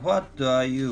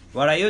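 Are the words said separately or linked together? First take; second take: separate; linked. First: Each word is said separately and clearly. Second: The words run together into one reduced chunk.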